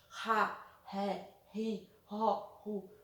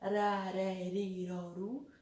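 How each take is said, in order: First: The r sound is strong and forceful. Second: The r sound is soft and light. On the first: The words are spelled with a double R. "o som mais forte" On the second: The words are spelled with a single R. "algumas com um R só"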